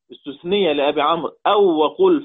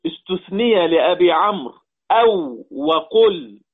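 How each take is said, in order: First: Said in the usual way. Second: Slow, with "أو" and "وقل" set apart and punched; emphatic teaching stress. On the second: Shown as a demonstration. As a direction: stretch out and hit "أو" and "وقل" for the students. Teacher stressing the excepted words. (بتمهّل مع إبراز «أو» و«وقل»)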